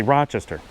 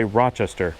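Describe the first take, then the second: First: "Rochester" with a more nasal "Ro"; Rochester local pronunciation. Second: "Rochester" with a less nasal "Ro"; Buffalo pronunciation. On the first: Speaker showing how the city itself says Rochester, nasal local accent. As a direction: push the first vowel of "Rochester" into the nose. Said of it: "the ra is much more nasally". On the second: Speaker showing how his hometown says Rochester, Buffalo pronunciation. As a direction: say "Rochester" the Buffalo way, without nasal first vowel. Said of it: "where I'm from, we say". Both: Shown as a demonstration.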